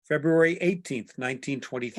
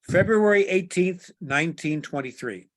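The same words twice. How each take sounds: First: It is read at a faster pace. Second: It is read at a slower pace.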